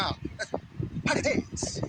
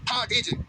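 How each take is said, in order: First: Breathy, drawn-out mock English accent; a hammed-up English accent, breathy and very slow. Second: Said in the usual way. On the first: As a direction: stretch हाँ very slowly like a posh English speaker. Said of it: "ऐसे अंग्रेज ऐसे बोलता है ना". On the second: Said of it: "ऐसे करते हैं ना".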